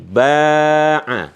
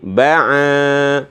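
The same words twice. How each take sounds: First: Only the first vowel is long. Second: Only the second vowel is long. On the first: "ketika ba-nya dikasih alif" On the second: "kalau di sini yang panjang a-nya"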